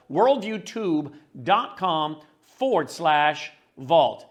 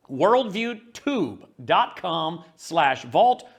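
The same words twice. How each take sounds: First: Slow, careful repeat with forward slash; steady, deliberate address read; slow URL read. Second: Very slow, deliberate web address; each part of the address spaced out; slow URL read. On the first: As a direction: drag out the address so it sticks. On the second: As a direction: read the address slowly for listeners to note. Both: Shown as a demonstration.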